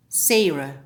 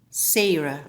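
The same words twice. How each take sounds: The two takes are said the same way.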